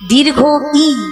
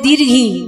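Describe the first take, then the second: First: The i is said as a separate syllable. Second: The i is merged into the word's end. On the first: The speaker calls it right. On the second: The speaker calls it wrong.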